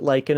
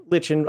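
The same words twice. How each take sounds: First: Lichen said LIKE-en; long i and hard k in lichen; American pronunciation. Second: Lichen said LITCH-en; short i and ch in lichen; British pronunciation. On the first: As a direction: say lichen with a k, like "liken". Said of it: "they pronounce it lichen as well". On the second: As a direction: say lichen with a ch, rhyming with kitchen. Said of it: "We're not British, so we don't say". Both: Shown as a demonstration.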